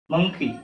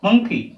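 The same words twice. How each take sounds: First: Said in the usual way. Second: monkey said higher and louder, both syllables clear; the teacher's first, emphatic model of monkey; emphatic demo. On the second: Shown as a demonstration. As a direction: punch monkey for the class to copy.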